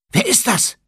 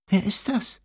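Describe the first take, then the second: First: High, loud startled question falling at the end; startled girl. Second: Put-on second startled girl. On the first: Acted. Hermine collides with someone in the dark, startled high cry. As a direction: blurt it out, startled. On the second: Ginny bumps into Hermine in the dark, high unsure question.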